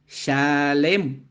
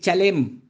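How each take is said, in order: First: It begins with a soft sh sound. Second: It begins with a hard ch sound. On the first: The speaker calls it right. "así es shalem" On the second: The speaker calls it wrong. "No es chalem"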